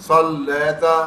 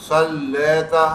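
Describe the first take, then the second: No difference in how they are said.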